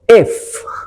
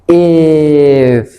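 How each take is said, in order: First: The word is said at normal speed. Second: The word is said slowly and stretched out.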